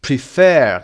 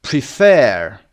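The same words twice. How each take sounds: First: Prefer repeated, stress landing on fer. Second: Prefer with the stress on fer, said loud; teacher models the stress in prefer, with the second part loud. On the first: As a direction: repeat Prefer with the weight on the second part. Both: Shown as a demonstration. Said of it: "قسمت دوم".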